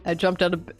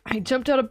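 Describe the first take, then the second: First: It is spoken in a very deep voice. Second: It is spoken in a less deep voice. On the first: "I have one deep voice" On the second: "This voice doesn't suit him!"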